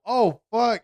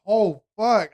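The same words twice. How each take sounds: First: High, alarmed curse; nurse's alarm. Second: A touch higher, startled curse; imitating the nurse catching her mistake; nurse's alarm. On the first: Retold or imitated. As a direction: mimic the nurse gasping out a curse in shock. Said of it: "I just hear her go". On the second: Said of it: "She goes".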